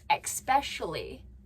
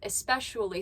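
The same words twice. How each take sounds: First: It begins with an 'ex' sound. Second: It begins with a plain 'es' sound. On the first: The speaker calls it wrong. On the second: The speaker calls it right.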